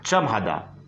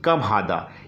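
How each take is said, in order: First: The first word begins with a ch sound. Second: The first word begins with a k sound. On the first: This is the Kuwaiti dialect form. "कम को यहाँ कुवैत में चम भी बोलते हैं" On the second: This is the common form, used in Saudi Arabia. "इसको अरबिक भाषा में बोलेंगे कम हादा"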